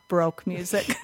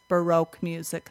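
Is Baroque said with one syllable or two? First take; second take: one; two. First: Baroque is said as one syllable, like broke. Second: Baroque is said with two syllables, ba-roque. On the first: This is the mistaken pronunciation being corrected. The speaker calls it wrong. "not Baroque music" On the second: This is the accepted pronunciation. The speaker calls it right. "that's Baroque music"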